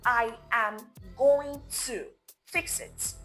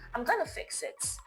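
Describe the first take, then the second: First: Every word is said fully without shortening. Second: The words are shortened and run together quickly. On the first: The speaker is in a formal, professional setting. "Speak in full when speaking formal English" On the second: The speaker is in a casual, informal setting. "it sounds natural, relaxed, fast"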